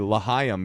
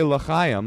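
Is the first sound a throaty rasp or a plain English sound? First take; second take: plain English; throaty rasp. First: It has a plain English sound without the rasp. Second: It has a throaty, raspy sound near the start. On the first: The speaker calls it wrong. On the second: The speaker calls it right. "if I say L'chaim"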